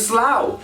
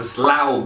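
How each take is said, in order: First: The final gh is left silent. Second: The final gh is sounded aloud. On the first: The speaker calls it right. "The G H at the end of a word goes silent" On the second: The speaker calls it wrong. "it's a slaug"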